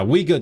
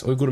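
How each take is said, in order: First: "Uyghur" said "WEE-gur"; English pronunciation. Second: "Uyghur" said "OOY-goor"; native-style pronunciation. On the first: Streamer rejecting it to chat, "Uyghur" pronounced English-style "WEE-gur". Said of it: "Uyghur is the English pronunciation". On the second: Streamer giving chat a hot take, "Uyghur" pronounced "OOY-goor". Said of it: "Uyghur doesn't make sense". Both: Shown as a demonstration.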